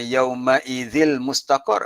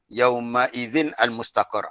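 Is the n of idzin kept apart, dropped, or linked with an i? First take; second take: dropped; apart. First: The n sound is left out entirely. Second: The n stops before a separate al. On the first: "tak boleh juga" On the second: "tu salah"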